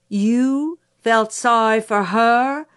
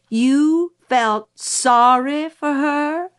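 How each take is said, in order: First: Slow, raised, drawn-out incredulous question. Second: Higher, louder, very slow incredulous repeat; outraged disbelief. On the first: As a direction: question it slowly in disbelief. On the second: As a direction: stretch every word in mounting outrage. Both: Acted. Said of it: "seemed ready to rise to the ceiling".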